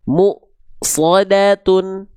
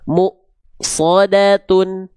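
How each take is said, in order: The two takes are said the same way.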